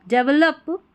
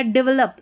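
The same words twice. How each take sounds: First: "डेवलप" with an e in the first syllable; पहला उच्चारण. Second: "डेवलप" said quicker, with a short i first; दूसरा उच्चारण. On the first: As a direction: say "डेवलप" as "DEV-lap". ("डेवलप" की शुरुआत "डेव" से) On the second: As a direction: say "डेवलप" as "di-VLAP". ("डेवलप" को "डिवलप" बोलें) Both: Shown as a demonstration. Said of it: "दोनों तरीके से pronounce".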